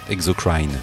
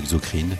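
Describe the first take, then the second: First: The name is pronounced the English way. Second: The name is pronounced the French way.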